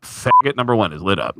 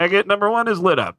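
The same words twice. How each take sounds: First: Said in the usual way. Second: Raised, mocking radio call; mock crew call, a bit higher; mocking stagehand call. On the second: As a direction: mimic a crew member sneering over the headset. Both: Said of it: "They go".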